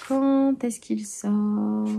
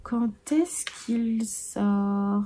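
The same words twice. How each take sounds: First: Drawn-out musing. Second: "Quand est-ce qu'il sort?" very slow and softer, drifting away; fading musing. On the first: Musing aloud to viewers about the release date, very slow. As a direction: stretch "Quand est-ce qu'il sort?" very slowly, half-singing each syllable. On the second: Wondering to herself about the release date, soft and slow. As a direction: let "Quand est-ce qu'il sort?" trail off dreamily, much slower. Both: Pretend.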